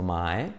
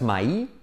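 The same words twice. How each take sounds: First: MY as one gliding syllable, "mae"; correct MY. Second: MY with the glide drawn out as "ma-ee"; wrong MY. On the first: Teacher modelling the right vowel, MY pronounced "mae". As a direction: say MY low and smooth, ending "ae". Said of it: "sino my". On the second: Teacher warning learners off a bad vowel, MY mispronounced. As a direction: say MY as two vowels, "ma-i". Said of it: "cuidado, no digas my". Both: Shown as a demonstration.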